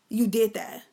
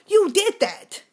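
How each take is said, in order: First: Said in the usual way. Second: Loud, high accusing yell; shout. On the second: Acted. Yelling at the abusive uncle that he did it. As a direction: hurl the accusation at him.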